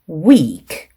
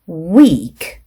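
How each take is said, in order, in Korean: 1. 모음을 길게 늘여 발음해요. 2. 모음을 길게 늘여 발음해요.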